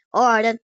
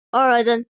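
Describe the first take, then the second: First: Loud Texan cowboy; Texan cowboy accent. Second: Put-on Texan cowboy accent. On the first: Acted. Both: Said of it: "cowboy accent".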